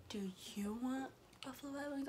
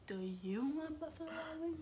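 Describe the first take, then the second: First: Soft, breath-only whispered question; imitated whisper. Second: Soft, higher-pitched mimicking question; imitated echo back. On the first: Imitating Gio asking about food, whispering. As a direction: whisper it like a secret offer. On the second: Repeating the food question back to Gio, soft and high.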